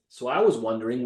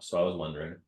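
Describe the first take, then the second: First: It is said with exaggerated, theatrical energy. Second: It is said with low, flat energy. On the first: Practising this way leaves enough energy after toning it down. The speaker calls it right. "why am I being overly like theatrical?" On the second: Practising this way leaves too little energy on the real call. The speaker calls it wrong. "if you practice like this"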